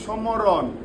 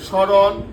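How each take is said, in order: First: The m sound is clearly pronounced. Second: The m sound is not pronounced. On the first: The speaker calls it wrong. "সমরণ হইতো না?" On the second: The speaker calls it right. "তাহলে মর উচ্চারণ কিন্তু এখানে হয়নি।"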